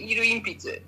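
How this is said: It uses Ibaraki dialect vowels, with vowels merged. "they say"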